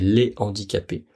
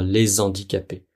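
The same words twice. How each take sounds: First: No z sound links les to handicapés. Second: A z sound links les to handicapés. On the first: The speaker calls it right. "Normalement, c'est les handicapés" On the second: The speaker calls it wrong. "on peut pas faire la liaison. On peut pas dire les handicapés"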